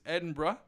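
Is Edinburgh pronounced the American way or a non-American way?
non-American. Edinburgh is said in a non-American way.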